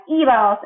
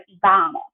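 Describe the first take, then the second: First: Íbamos stressed on the opening í, as EE-bah-mos; stress on first syllable. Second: Íbamos wrongly stressed on ba, as ee-BAH-mos; stress on middle syllable. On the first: Teacher showing what the accent does, stress on first syllable. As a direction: punch the í at the start of íbamos. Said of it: "So that makes it sound like". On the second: Teacher showing the word without its accent, stress on middle syllable. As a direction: move the weight of íbamos onto the middle ba. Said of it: "instead of íbamos". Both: Shown as a demonstration.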